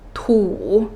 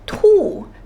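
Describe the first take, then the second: First: The syllable has a different, non-falling tone. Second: The syllable has the falling fourth tone. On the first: It means to tell or to spit. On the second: It means to throw up.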